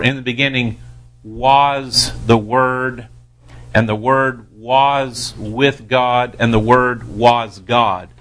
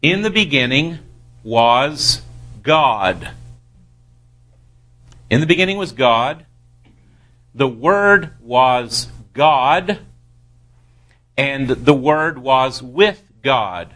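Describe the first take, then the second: First: Slow reading, leaning on WAS each time; deliberate, stretched WAS in every clause; misplaced emphasis. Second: Measured, reverent stress landing on GOD; emphasis on GOD. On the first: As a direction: draw out WAS, letting God pass without weight. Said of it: "place the emphasis on the wrong word". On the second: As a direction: pause before GOD and give the name full weight. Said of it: "it demands emphasis". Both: Shown as a demonstration.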